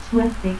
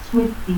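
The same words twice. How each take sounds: First: Said in the usual way. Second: Suerte as "suetti". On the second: Shown as a demonstration. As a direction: stop for R in Suerte, final i. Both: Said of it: "confusión de R y T al final de sílaba".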